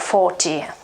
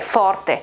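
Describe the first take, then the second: First: It is said in an American English accent. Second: It is said with an Italian pronunciation. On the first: "open uh, O in uh, in um, American English" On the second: "but we pronounce it forte"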